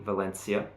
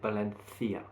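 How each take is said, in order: First: The name is said with a British pronunciation. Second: The name is said with a Spanish pronunciation. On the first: This is how people in Britain say it. "If you come to Britain, you'll hear people say Valencia" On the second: This is how people in Spain say it. "In Spain, I believe, as far as I know, they would say it Valencia"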